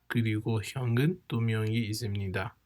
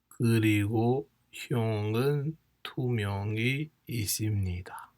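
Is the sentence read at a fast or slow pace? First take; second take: fast; slow. First: It is read at a normal, quicker pace. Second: It is read slowly and deliberately.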